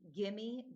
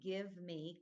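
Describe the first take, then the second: First: The words blend together into one reduced word. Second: Each word is said separately and fully. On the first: The speaker calls it wrong. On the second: The speaker calls it right.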